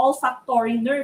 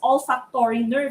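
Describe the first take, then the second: First: It is said with a Filipino pronunciation. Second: The same.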